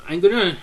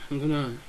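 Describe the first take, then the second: First: Loud excited blurt of gonna. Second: Said in the usual way. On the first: Real, not acted. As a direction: burst out with I'm gonna. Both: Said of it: "Sorry, I'm excited".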